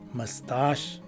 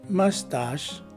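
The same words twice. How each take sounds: First: The main stress is on the second syllable. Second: The main stress is on the first syllable. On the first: "The second variation has the placement of the two stresses rather reversed" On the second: "In the first variation, a primary stress is present in the beginning of the word"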